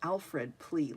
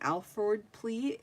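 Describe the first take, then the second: First: The name ends in a 'fred' sound. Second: The name ends in an 'ford' sound. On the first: The speaker calls it wrong. "I kept calling it an Alfred plea, like Batman Alfred" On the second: The speaker calls it right. "A L F O R D"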